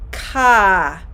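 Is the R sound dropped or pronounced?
dropped. The final R sound is dropped. "The R sounds would be more like ah"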